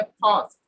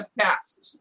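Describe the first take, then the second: First: ফাস্ট with a long open "ah"; British pronunciation. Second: ফাস্ট with the "a" of cat; American pronunciation. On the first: Teacher shows how the British speak, ফাস্ট with "ah". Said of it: "ব্রিটিশরা বলে". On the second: Teacher shows how Americans speak, ফাস্ট with front "a". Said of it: "আমেরিকানরা বলে". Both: Shown as a demonstration.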